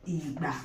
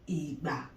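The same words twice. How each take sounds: The two takes are said the same way.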